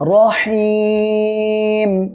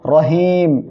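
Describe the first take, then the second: First: The vowel before the final m is drawn out long. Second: The vowel before the final m is kept short. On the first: The speaker calls it right. "তাহলে বলবো রহিম" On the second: The speaker calls it wrong. "কেউ যেন বলবেন না রহিম, এটা বললে কিন্তু ভুল হবে"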